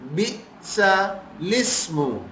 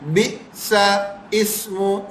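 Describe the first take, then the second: First: The L sound begins the second word. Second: The L sound is left out entirely. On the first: The speaker calls it right. "है क्या?" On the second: The speaker calls it wrong. "ये भी गलत है।"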